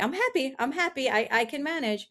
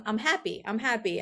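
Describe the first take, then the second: First: Higher, brittle insistence that all is fine; forced cheer. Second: Said in the usual way. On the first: Retold or imitated. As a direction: talk yourself into being happy, pitched up. Forced self-talk through depression.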